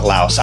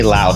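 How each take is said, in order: First: It ends with an s sound. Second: It ends without an s sound. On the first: This is how expats say it. "not Laos" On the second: This is how the locals say it. "there's no S in the speaking"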